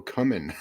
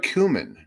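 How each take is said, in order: First: "cumin" said as CUM-in; short "uh" in the first syllable of "cumin". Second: "cumin" said as COO-min; long "oo" in the first syllable of "cumin". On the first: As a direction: say "cumin" to start like "come". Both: Shown as a demonstration. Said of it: "it looks like it says cumin".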